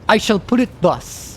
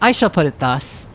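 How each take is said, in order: First: It is read in a pompous voice. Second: It is read in an ordinary voice.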